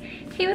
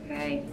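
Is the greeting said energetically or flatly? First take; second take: energetically; flatly. First: The greeting is said with lively, high energy. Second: The greeting is said flatly, with low energy. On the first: The greeter is outgoing and at ease on camera. "He's not like me where I'm just like" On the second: The greeter is reserved and uneasy on camera. "He's like"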